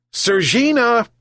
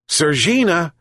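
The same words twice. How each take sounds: First: Much higher, louder second call; louder repeat shout. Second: Calling out. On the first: Fisherman calls the missing cat again, shouting higher. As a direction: call again, pushing it up high. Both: A narrator's reading. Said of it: "he shouted again".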